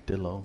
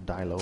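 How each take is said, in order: First: "Dillo" said DILL-oh; "Dillo" rhyming with pillow; short-i Dillo. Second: "Dilo" said DIE-loh; "Dilo" with first syllable like "die"; long-i Dilo. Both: Shown as a demonstration. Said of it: "however the hell you wanna pronounce it".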